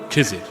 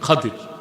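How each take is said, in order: First: The name is said with a 'j' sound. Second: The name is said with a 'd' sound. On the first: The speaker calls it wrong. "আমরা বলি খিজির, এটা ভুল উচ্চারণ।" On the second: The speaker calls it right. "শুদ্ধ উচ্চারণ কি?"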